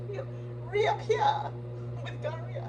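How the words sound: It is said in an attempted Boston accent.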